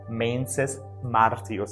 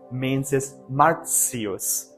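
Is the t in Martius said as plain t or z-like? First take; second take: plain t; z-like. First: The t in Martius is a plain t. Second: The t in Martius sounds like a z. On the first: "in classical Latin" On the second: "in ecclesiastical, it's Mensis Martius. This T I sound makes a Z sound"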